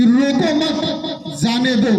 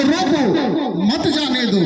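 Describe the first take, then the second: First: "रोको मत", then a break, then "जाने दो"; group मत with रोको, pause before जाने दो; pause after मत. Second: "रोको", then a break, then "मत जाने दो"; pause after रोको. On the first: Orator showing the crowd one phrasing, pausing after मत. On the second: Orator showing the crowd another phrasing, pausing after रोको. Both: Shown as a demonstration. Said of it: "कहने का तरीका अलग है".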